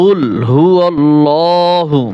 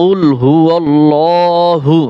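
No difference in how they are said.

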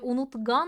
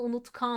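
First: The consonant before the ending is a soft g. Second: The consonant before the ending is a hard k. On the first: The speaker calls it wrong. "unutgan mı" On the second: The speaker calls it right. "Sert olan yumuşak olanı kendisine benzetti"

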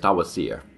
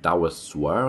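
First: The last syllable has no w sound. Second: The last syllable starts with a w sound. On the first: The speaker calls it right. "The I is like an E sound" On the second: The speaker calls it wrong. "I think I was saying Dawaswer or something"

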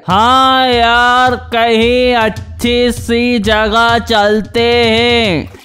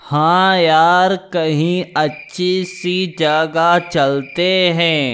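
First: It is said louder than the first time. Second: It is said at a normal pace and volume.

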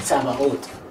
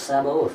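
First: It is said the Hebrew way, with a ts sound. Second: It is said the English way, without a ts sound. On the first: "if you wanted to say it in Hebrew, it would be Sabaoth" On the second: "But we say it in English, Sabaoth"

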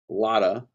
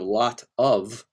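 First: The words are run together and reduced. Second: Each word is fully and separately pronounced. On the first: "us doing lazy speak" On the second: "instead of"

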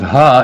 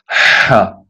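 First: The h is a plain, open breath. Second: The h is made with a tightened throat. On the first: "instead of ha" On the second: "a he with the throat muscles constricted"

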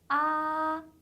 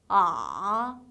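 First: The pitch stays high and level throughout. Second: The pitch dips down, then springs slightly up. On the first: "높은 음에서 쭉 이어지는 음이에요" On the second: "내려갔다 살짝 올라가는데"

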